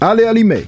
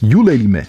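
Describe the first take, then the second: First: The name begins with an 'ah-lay' sound. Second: The name begins with a 'yule' sound. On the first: The speaker calls it wrong. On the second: The speaker calls it right.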